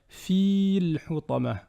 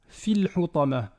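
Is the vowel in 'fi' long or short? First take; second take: long; short. First: The vowel in 'fi' is drawn out long. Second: The vowel in 'fi' is short. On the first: The speaker calls it wrong. "on ne va pas dire" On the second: The speaker calls it right. "elle fait disparaître la prolongation précédente"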